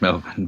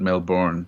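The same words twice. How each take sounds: First: The r sound is left silent. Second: The r sound is pronounced clearly. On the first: This is how people in Australia say it. "that's why you called it Melbourne ... ours tend to be um, silent" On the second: This is how many Americans say it. "a lot of Americans call it Melbourne"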